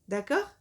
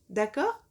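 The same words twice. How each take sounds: The two takes are said the same way.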